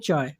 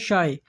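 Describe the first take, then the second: First: The word begins with a ch sound. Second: The word begins with a sh sound. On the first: This is how it is said in Kuwait or Bahrain. "वहाँ बोलते हैं" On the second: This is how it is said in Saudi Arabia. "यहाँ बोलते हैं"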